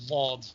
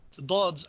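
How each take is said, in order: First: It begins with an l-like sound. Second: It begins with a plain d-like stop sound. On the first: This is the likely early pronunciation. The speaker calls it right. "it was probably something close to lod" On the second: This is the common modern recitation pronunciation. The speaker calls it wrong. "I'm pronouncing it wrong"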